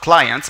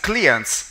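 First: The word is pronounced the English way. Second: The word is pronounced the Latin way. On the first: The speaker calls it wrong. "not clients" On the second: The speaker calls it right. "because it's Latin and not English"

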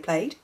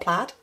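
First: The vowel sounds like the one in 'made'. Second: The vowel sounds like the one in 'bad'. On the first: "I for some reason say plaid" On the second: "not plaid, which is weird because it's almost spelt like plat"

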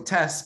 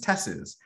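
First: The final T is kept, in one syllable. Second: The final T is dropped, adding an extra syllable.

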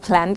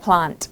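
First: It is said with an American accent. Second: It is said with a British accent. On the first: "แบบอเมริกันกับอังกฤษจะค่อนข้างแตกต่างนะ" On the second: "แบบอเมริกันกับอังกฤษจะค่อนข้างแตกต่างนะ"

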